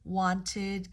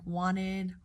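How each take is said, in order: First: The T sound is clearly pronounced. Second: The T sound is dropped entirely.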